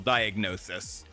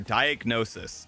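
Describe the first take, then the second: First: The s sound is lisped. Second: The s sound is clear. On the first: The speaker calls it wrong. "My lisp came out there" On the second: The speaker calls it right. "There we go. Much better"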